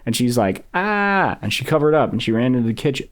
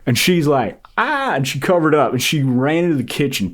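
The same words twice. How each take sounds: First: It is read in the speaker's normal voice. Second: It is read in a put-on imitation voice. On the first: The speaker calls it wrong. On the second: The speaker calls it right.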